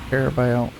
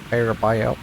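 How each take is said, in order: Both takes have the same delivery.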